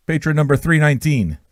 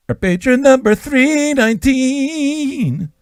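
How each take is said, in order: First: Said in the usual way. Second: Much higher, slow, drawn-out put-on announcer voice; high, slow hammed-up announcement; mock announcer. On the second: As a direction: announce the number like a grand game-show host. Announcing patron over music.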